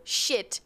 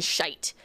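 First: Said in the usual way. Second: "shite" with a long I vowel, rhyming with kite; Irish "shite", long gliding vowel; Irish variant. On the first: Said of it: "difference between you when you go". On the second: Shown as a demonstration. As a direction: say "shite" to rhyme with bite. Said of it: "when you go shit and shite".

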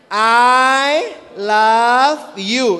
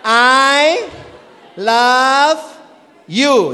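First: Very slow, drawn-out I love you; drawn out, showing the sign for I love you; slow demo. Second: I, love, you, each word set apart by a pause; separated words with a slight lift. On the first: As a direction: stretch each word of I love you as you sign it. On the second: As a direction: spell out I love you one word per sign. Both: Shown as a demonstration. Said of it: "Untuk American Sign Language".

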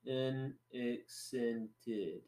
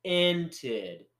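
First: Very slow, soft French-accented "unaccented"; French pronunciation. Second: "Unaccented" drawn out syllable by syllable; slow sounding-out. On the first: Showing a friend the French way, slowly in a French accent. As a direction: stretch "unaccented" out syllable by syllable with French vowels. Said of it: "They would say". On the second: Teaching a friend the difference, slowly sounding out "Unaccented". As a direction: slowly separate each sound of "Unaccented" in the usual way. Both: Shown as a demonstration.

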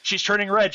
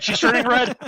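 First: Teasing. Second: Loud high teasing cry; louder teasing. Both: Real, not acted.

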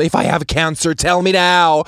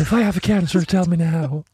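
First: Loud dramatic English plea, rising; full show. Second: Mock quote. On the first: Retold or imitated. Patient demanding the doctor in English, dramatic plea. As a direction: demand it theatrically, louder at the end. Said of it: "jeg kjører fullt show". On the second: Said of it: "Sitter du der og sier".

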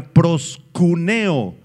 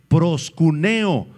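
First: Said in the usual way. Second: Proskuneo spelled out slowly, stress on the E of -neo; careful Greek word. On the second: Shown as a demonstration. Preacher teaching the church a Greek word, slow and deliberate. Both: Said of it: "con K y acento en la E".

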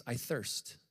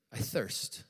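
First: Said in the usual way. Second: Breathy whisper, no voice; the dying man's whisper. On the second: Acted. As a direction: let it fade into a parched whisper. Jesus's words on the cross.

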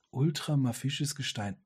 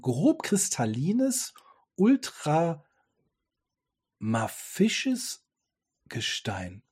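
First: Said in the usual way. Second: "ultramafisches" dragged out very slowly, rising; sounding out "ultramafisches Gestein" syllable by syllable; slow stumbling read. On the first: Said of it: "das sind Wörter". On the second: Real, not acted. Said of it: "das sind Wörter, die muss ich erstmal googeln".

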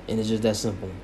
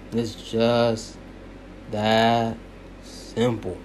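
First: Said in the usual way. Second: Each word set apart, It's just / that / simple, dropping on simple; emphatic pauses. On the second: Shown as a demonstration. Closing his argument to viewers, emphatic pauses. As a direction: lay it down slowly, word by word with pauses.

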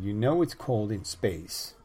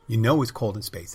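First: Drawn out and even, a mock menace; first take, slow and measured; slow mock line. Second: Louder, punching "know" and falling at the end; mock-menacing repeat; louder mock line. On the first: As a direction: ease into it slowly. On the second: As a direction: hit it harder the second time. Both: Acted comeback line, repeated.

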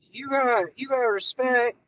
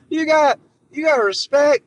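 First: Joe Biden impression. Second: Pushed high and loud, missing the mark; a first try that overshoots; a botched Biden attempt, too shouty; failed Biden voice. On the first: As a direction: settle into a lightly voiced old-man Biden. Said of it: "shitty Joe Biden impression". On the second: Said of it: "that's not Joe Biden".

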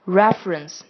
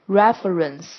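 First: "reference" in two syllables, REF-rence; elided schwa. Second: "reference" in three syllables, REF-uh-rence; full form. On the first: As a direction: drop the middle schwa of "reference". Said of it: "我们念成". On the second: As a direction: keep the middle schwa in "reference". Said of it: "这种省略的方法". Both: Shown as a demonstration.

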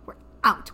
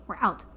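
First: "We're out" louder, hitting "out" hard; insistent repeat. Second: Said in the usual way. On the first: Retold or imitated. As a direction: say "We're out" again with exasperated emphasis on "out".

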